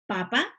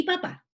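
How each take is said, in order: First: "papa" con la fuerza en PA inicial; acento en la primera sílaba. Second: "papá" con la fuerza en el PÁ final, más agudo; acento en la última sílaba. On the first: ("papa" acentuado en la primera sílaba) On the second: ("papá" acentuado en la última sílaba) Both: Shown as a demonstration. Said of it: "esta intensidad de la voz para destacar una sílaba".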